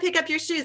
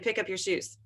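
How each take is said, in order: First: It is said loudly and forcefully. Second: It is said at a normal, calm volume.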